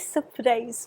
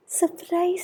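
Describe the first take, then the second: First: Said in the usual way. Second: Sung-out high surprise; playful surprise. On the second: Real, not acted. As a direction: announce it like a little treat. Playful reveal of the light.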